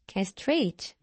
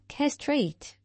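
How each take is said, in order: First: The stress is on the last syllable. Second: The stress is on the first syllable. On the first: "영국식 발음" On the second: "미국식 발음"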